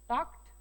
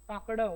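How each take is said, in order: First: The word ends with a t sound. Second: The word ends with a d sound. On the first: The speaker calls it right. "ट म्हणून होतो" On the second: The speaker calls it wrong. "असं करायचं नाही"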